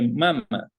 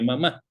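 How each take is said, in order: First: The stress is on the first syllable. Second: The stress is on the last syllable. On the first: "sin acento se lee mama" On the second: "con acento se lee mamá"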